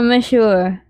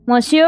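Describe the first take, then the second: First: "monsieur" as mi-SHOOR, no n; alternative pronunciation. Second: "Monsieur" as MON-syur, first vowel open with an n; spelled-out pronunciation. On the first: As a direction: say "monsieur" with a short first vowel and sh. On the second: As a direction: say "Monsieur" as written, mon-SUR. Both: Shown as a demonstration. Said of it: "How do you pronounce that?".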